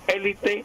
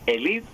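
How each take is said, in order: First: The stress is on the first syllable. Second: The stress is on the second syllable. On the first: "con acento esdrújulo" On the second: "con acento grave"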